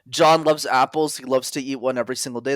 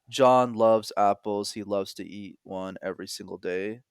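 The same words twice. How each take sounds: First: It is said fast. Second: It is said slowly.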